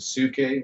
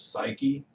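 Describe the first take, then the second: First: The first vowel is an 'oo' sound. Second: The first vowel is an 'eye' sound. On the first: This is how ancient Greeks may have said it. "giving the traditional, like how the Greeks would have said it more" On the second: This is how most people say it today. "most of us know as psyche"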